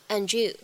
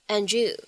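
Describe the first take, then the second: First: The two words are blended together quickly. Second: The two words are blended together quickly.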